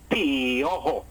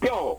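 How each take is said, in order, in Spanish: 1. La pareja de vocales se divide en dos sílabas. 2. La pareja de vocales se pronuncia en una sílaba. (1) "no puedo decir piojo" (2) "tengo que decir piojo, el diptongo en un solo golpe de voz"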